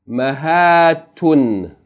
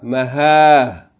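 First: The word ends with a t-sound and -un. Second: The word ends in a with no t-sound. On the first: The reading continues on without stopping. "that's the continual mode" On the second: The reader stops on this word. "Pause mode, you pronounce it Maha"

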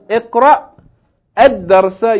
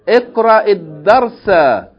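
First: Iqra ends without a linking vowel. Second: Iqra ends with a linking i vowel. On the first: The speaker calls it wrong. "Instead of saying" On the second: The speaker calls it right. "Put a kasra"

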